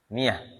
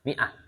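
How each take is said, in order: First: It is said the Egyptian way, with a y-glide. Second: It is said the standard way, with a glottal stop.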